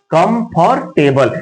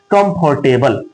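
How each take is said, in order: First: कंफर्टेबल said slowly, syllable by syllable; split into syllables. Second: Said in the usual way. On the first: Shown as a demonstration. Teacher showing students a word's syllables, slow and split. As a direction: stretch कंफर्टेबल out into its separate syllables. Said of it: "एक से अधिक बारों में". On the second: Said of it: "जैसे मैं बोल दिया".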